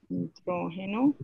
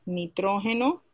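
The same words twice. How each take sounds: First: Nitrógeno drawn out slowly, every syllable clear; teacher repeating Nitrógeno slowly for the class to remember; slow emphatic repeat. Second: Said in the usual way. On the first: Shown as a demonstration.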